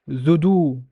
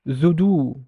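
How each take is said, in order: The two takes are said the same way.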